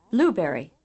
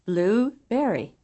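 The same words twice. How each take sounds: First: BLUEberry as one quick word, berry weak; first-syllable stress. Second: Blueberry in two slow parts, berry nearly as strong as blue; second-syllable accent. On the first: Teacher demonstrating English compounds, first-syllable accent on Blueberry. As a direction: hit BLUE and let berry drop in Blueberry. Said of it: "First syllable accent". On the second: Teacher contrasting English items, second-syllable accent on Blueberry. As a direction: give berry its own full beat in Blueberry. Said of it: "Second syllable accent". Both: Shown as a demonstration.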